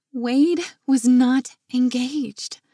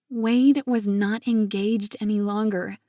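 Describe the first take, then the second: First: Slow, deliberate words, stress on Wade; slowed repeat. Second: Said in the usual way. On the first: A narrator's reading. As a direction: let each word of "Wade was not engaged" sink in.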